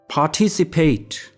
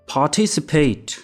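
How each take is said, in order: First: It is said with a British accent. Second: It is said with a British accent.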